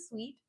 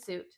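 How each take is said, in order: First: It sounds like the word sweet. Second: It sounds like the word suit. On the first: The speaker calls it right. "even though I know it's a suite" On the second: The speaker calls it wrong. "but it's a suit"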